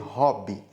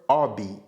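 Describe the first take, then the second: First: The initial H sound is clearly pronounced. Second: The initial H sound is left silent. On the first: "Ao invés de hobby" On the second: "elas pronunciam o H do inglês como se fosse o H do português"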